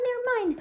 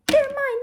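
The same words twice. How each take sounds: First: Milder claim. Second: Higher, louder possessive yell; loud claiming. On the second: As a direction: shout that they're all his. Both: Acted. Lion claims toys.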